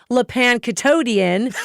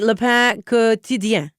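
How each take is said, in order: First: The name is said with an English accent. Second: The name is said with a French accent.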